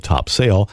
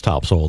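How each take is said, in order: First: Topsail said as two full words, "top sail"; as spelled. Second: Topsail said as "TOP-sul"; local pronunciation. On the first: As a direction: give the "sail" in Topsail its full long vowel. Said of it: "though spelled Topsail". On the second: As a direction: reduce the "sail" in Topsail to a quick unstressed "sul". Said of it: "it's pronounced Topsail". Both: Shown as a demonstration.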